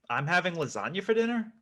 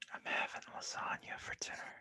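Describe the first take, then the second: First: It is said as a question. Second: It is said as a seduction.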